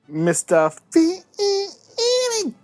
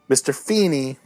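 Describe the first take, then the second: First: The name is said in a put-on voice. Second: The name is said in a normal voice.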